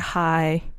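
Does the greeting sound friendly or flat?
flat. It is said in a flat, unfriendly way.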